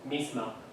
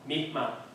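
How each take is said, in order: First: The final s sound is dropped completely. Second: The final s sound is dropped completely.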